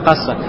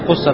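First: The first vowel is a. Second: The first vowel is u. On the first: The speaker calls it right. "Правильно будет касса" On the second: The speaker calls it wrong. "с даммой, кусса, так это неправильно"

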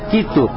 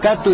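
First: The first vowel is i. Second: The first vowel is a. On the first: The speaker calls it right. "а как «китту»" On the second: The speaker calls it wrong. "не «катту»"

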